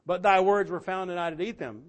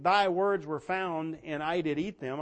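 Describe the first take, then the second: First: "But thy words were found" hit louder with weight on "thy"; a louder, pointed second read of the verse; emphatic repeat. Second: Slow, measured reading of "Thy words were found"; slow scripture quote. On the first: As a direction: press the verse home. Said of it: "I wonder if he's talking about that". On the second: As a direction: lay the verse down slowly. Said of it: "here's Jeremiah saying". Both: Acted.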